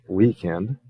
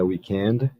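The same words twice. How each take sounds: First: The stress is on the first syllable. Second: The stress is on the last syllable. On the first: This is the American way of saying it. "Os americanos têm a weekend" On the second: This is the British way of saying it. "os britânicos vão botar a tônica lá no final"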